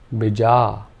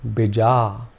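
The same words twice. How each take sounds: First: Only the second vowel is long. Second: Only the second vowel is long.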